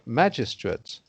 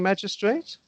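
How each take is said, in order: First: The last syllable is a short, weak 'ut'. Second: The last syllable is a full 'eight'. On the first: "I I hear it as being magistrate" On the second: "but you hear it as being magistrate?"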